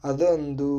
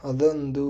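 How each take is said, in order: Both takes have the same delivery.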